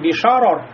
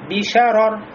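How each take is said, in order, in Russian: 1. Звук sh тяжёлый и тёмный. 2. Звук sh тонкий и светлый. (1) "не бишарор" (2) "а бишарор"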